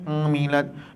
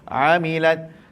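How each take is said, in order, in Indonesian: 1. Bunyi pertama dikeluarkan melalui hidung. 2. Bunyi pertama keluar dari tengah tenggorokan. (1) "Jangan bunyi amilat. Mimma amilat. Hidung sini" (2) "Tengah halkum"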